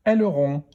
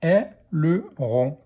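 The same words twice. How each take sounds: First: Said in the usual way. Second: Slow "Aileron", split into è, le, ron; syllable by syllable. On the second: Shown as a demonstration. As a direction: sound out "Aileron" in three beats. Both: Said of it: "Première syllabe".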